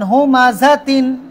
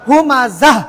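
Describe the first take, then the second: First: The word ends with a full 'tin' sound. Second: The word ends with a soft 'h' sound. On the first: "সবাই বলেন হুমাজা তিন" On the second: "এখন এখানে যদি থামেন কি হবে?"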